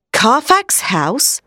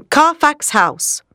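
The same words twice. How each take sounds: First: Slow, rising question of surprise; exclaimed question. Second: Said in the usual way. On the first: A narrator's reading. Two men react to the hiding place, exclaimed in surprise. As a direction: echo it as a drawn-out, startled question. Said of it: "Doctor Seward and Arthur exclaimed together". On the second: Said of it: "exclaimed together".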